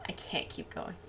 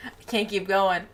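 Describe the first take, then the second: First: Voiceless whispered line, trailing. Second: Said in the usual way. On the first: Shown as a demonstration. Streamer whispering to chat before saying it aloud. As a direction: whisper it, out of steam.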